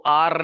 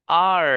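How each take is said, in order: First: "आर" with a hard Urdu rolled r; wrong rolled R. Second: "आर" drawn out with a smooth untrilled r, louder; English R. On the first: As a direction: tap the r at the end of "आर". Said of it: "वो आर नहीं बोलना है". ("आर" में र को कड़ा बोलना) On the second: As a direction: model "आर" strongly, tongue never tapping. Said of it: "इस आर का जो प्रोनाउंसिएशन करना है". (बिना लुढ़काए, लंबा अंग्रेज़ी "आर") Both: Shown as a demonstration.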